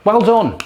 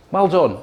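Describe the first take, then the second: First: Sarcastic well done said louder and higher; mock praise, louder and higher. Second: Milder mock praise. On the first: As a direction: overplay the congratulations. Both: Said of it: "people out there like that".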